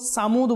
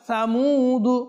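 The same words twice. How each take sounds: First: It begins with an s sound. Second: It begins with a th sound. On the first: The speaker calls it wrong. "সামুদ বলবো না, সিন না" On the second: The speaker calls it right. "এটা হচ্ছে সা"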